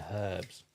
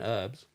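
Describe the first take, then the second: First: The word starts with an H sound. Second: The word starts without an H sound. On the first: This is how Australians say it. "but Australian herbs" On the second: This is how Americans say it. "They're American herbs"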